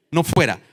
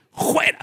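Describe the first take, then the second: First: Said in the usual way. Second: "fuera" begun with a raspy J sound, "juera". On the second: Retold or imitated. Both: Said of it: "con J le dijo".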